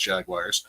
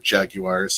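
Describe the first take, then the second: First: It is said in an American accent. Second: It is said in a British accent.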